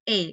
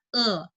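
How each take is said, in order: First: The vowel is said the Indonesian way. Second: The vowel is said the Mandarin way. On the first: The speaker calls it wrong. "bukan E" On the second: The speaker calls it right. "di sini bacanya E"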